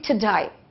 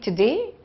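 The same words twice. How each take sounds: First: The second syllable sounds like 'die'. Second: The second syllable sounds like 'day'. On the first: "some other people who have an accent will say today" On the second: "We say today"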